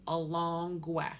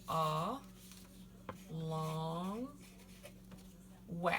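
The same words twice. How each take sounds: First: Said in the usual way. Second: "a long we" split into three syllables, long pauses between; sounded out. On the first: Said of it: "so it's a long gwe". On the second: Shown as a demonstration. Teacher teaching the word for star, "a long we" sounded out syllable by syllable. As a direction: break "a long we" apart, drawing out "long". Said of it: "So the stress is on the second to last syllable".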